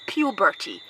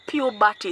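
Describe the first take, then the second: First: "puberty" said properly, "pyoo-ber-tee" with a clear p; correct puberty. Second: "puberty" said as "yubati", with a y-sound at the start; wrong puberty. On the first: Correcting the man's mispronunciation, correct "pyoo-ber-tee". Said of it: "It's not puberty". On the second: Correcting a man who mispronounces the word, wrong version said as "yubati". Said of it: "it's puberty". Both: Shown as a demonstration.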